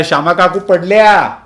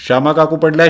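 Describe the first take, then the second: First: Higher, louder repeat of the cry; louder alarmed shout. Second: First cry of alarm; alarmed shout. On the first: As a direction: yell it again, more urgent. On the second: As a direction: call out the alarm, raised. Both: Acted. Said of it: "असा ओरडा झाला".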